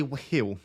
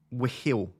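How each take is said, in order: First: "wheel" with an aspirated H; "wheel" with a breathy hw onset. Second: "Wheel" with a puffed H before the vowel; "Wheel" as hwee-l; aspirated wh. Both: Shown as a demonstration. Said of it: "If I pronounce the H".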